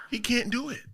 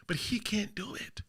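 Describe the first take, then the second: First: Said in the usual way. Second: A whispered dig. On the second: Real, not acted. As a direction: drop to a whisper, hushed. Mocking Jey Uso, quiet aside.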